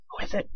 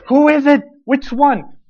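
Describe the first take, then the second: First: Hushed whisper of who is it. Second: Louder and higher, pressing for an answer; demanding to know at once; urgent demand. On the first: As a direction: whisper so others can't hear. Peter secretly prodding John. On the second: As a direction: Peter insisting on a name. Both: Retold or imitated.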